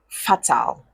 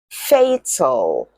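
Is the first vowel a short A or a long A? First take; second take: short A; long A. First: The first vowel is a short A sound. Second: The first vowel is a long A sound. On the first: The speaker calls it wrong. "So do not say fatal" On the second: The speaker calls it right. "What sound does the letter A make in them?"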